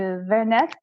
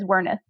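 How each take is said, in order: First: The name is said with a German pronunciation. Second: The name is said with an American pronunciation. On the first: This is how the name would sound in its original language. "in German it would be something closer closer to Vernecht" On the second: This is how the family actually says the name. "we just pronounce it as Werneth"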